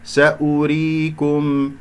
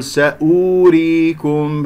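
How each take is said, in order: First: سأريكم chanted slowly with a brief u after ء, long ري; short hamza damma. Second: سأوريكم with the written و stretched into a long oo; wrongly long u. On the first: Teacher showing the silent waw, slow chant with short ء vowel in سأريكم. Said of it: "سنلفظ هنا همزة مضمومة". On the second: Teacher showing what not to say, drawn-out oo in سأوريكم. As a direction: lengthen the vowel after hamza in سأوريكم. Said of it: "لا أقول سأوريكم". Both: Shown as a demonstration.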